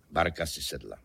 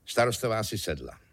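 First: Low, deadpan echo; hluboká ozvěna. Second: Vyšší hlas. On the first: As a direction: drop the pitch to echo the line before. Ozvěna předchozí věty hlubším hlasem. (hluboko položená komická ozvěna) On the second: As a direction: narrate it at normal pitch, as the first of two. Protiklad dvou žen, výš a níž. (první, výše položená půlka ozvěny) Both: A narrator's reading.

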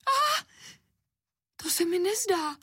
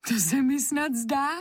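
First: Very high-pitched squealed protest; girl's shriek. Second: Higher, lightly amused disbelief. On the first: Anička sees the slippers on the table, shrieking high. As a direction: shriek it in a little girl's voice, without much extra volume. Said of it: "zaječela holčička". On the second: Anička watches her slippers dodge her hand, amused. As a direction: say it as a tickled little girl. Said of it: "řekla Anička pobaveně". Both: A narrator's reading.

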